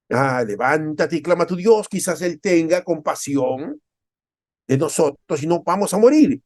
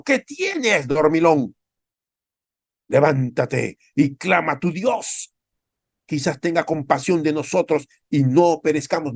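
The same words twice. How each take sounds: First: Louder, pleading captain, slowing on compasión; a desperate captain begging Jonah to call on his God; captain's urgent plea. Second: High, urgent mock captain, then slowing on the plea; a ship's captain hauling Jonah out of sleep; captain scolding Jonah. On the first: Acted. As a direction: urge him to pray before they die. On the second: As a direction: shake the sleeper awake and beg him to pray. Ship captain rebukes sleeping Jonah.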